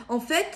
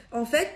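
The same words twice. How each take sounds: The two takes are said the same way.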